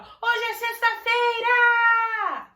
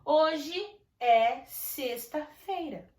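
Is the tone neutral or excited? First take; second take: excited; neutral. First: It is said with surprise and happy excitement. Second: It is said as a plain, neutral statement.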